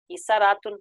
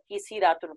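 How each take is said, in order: First: کسراتن with an "a" after the s; fatha on the middle letter. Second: کسی راتن with an "i" after the s; kasra on the middle letter. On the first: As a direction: say کسراتن as ki-sa-raa-tun. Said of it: "عین کلمے پر فتح بھی پڑھی جا سکتی". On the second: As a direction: say کسی راتن as ki-si-raa-tun. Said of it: "کسرہ بھی پڑھی جا سکتی". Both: Shown as a demonstration.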